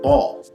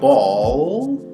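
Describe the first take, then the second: First: The final L sound is short and natural. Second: The final L sound is dragged out. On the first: "and then condense it" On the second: "we can drag to get them to say that sound"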